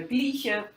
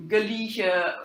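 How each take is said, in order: First: "gleiche" said in two syllables, GLEE-sheh, no vowel before the l; dialect pronunciation. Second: "gleiche" said in three syllables, geh-LEE-sheh, with a short "geh" before the l; standard Middle High German form. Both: Shown as a demonstration. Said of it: "instead of".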